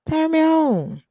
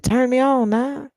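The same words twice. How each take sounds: First: Higher, teasing turn me on; playful swooning repeat; high mock swoon. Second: Said in the usual way. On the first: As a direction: coo it up high.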